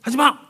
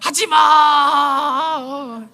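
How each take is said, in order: First: Short half-hearted parental telling-off, no real anger; mock scolding. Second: Long drawn-out enraged yell, higher pitched; furious shout. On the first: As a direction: scold with the voice only. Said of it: "분노가 없고 그게 화가 덜 난 상태에서 목소리만". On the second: Retold or imitated. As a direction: roar it from the depths of the soul, stretching the last vowel. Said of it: "영혼 깊은 데서부터 분노가 막 치솟아 오르면서".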